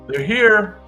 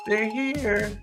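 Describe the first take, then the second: First: It is said in his normal voice. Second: It is said in a little girl's voice.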